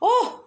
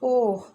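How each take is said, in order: First: The voice sounds surprised. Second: The voice sounds sad.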